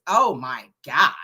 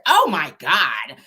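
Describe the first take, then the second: First: Slow, lower-pitched Valley Girl imitation. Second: Slow, stretched Valley Girl imitation; Valley Girl accent. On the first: [name] with hand on face, drawn-out Valley Girl mimicry. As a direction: draw out each word, Valley Girl style. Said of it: "like in her Valley voice". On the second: [name] reacting to being yelled at, mock Valley Girl drawl. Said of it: "this real Valley Girl accent".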